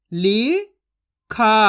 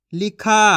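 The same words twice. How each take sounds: First: लिखा stretched slowly with a falling end; slow drawn-out sounding. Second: Said in the usual way. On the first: Shown as a demonstration. Teacher stretching लिखा slowly for children to copy. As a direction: draw out लिखा slowly, then let it fall. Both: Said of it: "मैं किस तरीके से एक एक अक्षर का उच्चारण करके".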